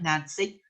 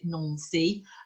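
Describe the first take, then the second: First: The name is read the English way, as spelled. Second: The name is said the French way. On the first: "Looks like Nancy" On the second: "pronounce it Nancy"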